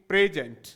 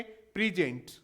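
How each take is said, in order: First: प्रेजेंट said "PRE-jent", open e first; adjective pronunciation. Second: प्रेजेंट said "pri-JENT", short i first; verb pronunciation. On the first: Teacher contrasting adjective with verb, प्रेजेंट as "PRE-jent". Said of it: "इसको बोलेंगे". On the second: Teacher contrasting verb with adjective, प्रेजेंट as "pri-JENT". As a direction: stress the second syllable of प्रेजेंट, "pri-JENT". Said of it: "इसको क्या बोलेंगे?". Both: Shown as a demonstration.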